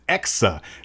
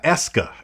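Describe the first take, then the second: First: The k sound comes before the s sound. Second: The k sound comes after the s sound. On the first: The speaker calls it right. "It is Exa" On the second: The speaker calls it wrong. "I was pronouncing it wrong"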